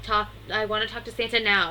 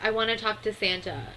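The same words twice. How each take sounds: First: Louder, insistent retold demand; lightly imitated demanding yell; mild mock yell. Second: Said in the usual way. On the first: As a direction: act out a child's demand, louder, short of a scream. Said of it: "screams at him".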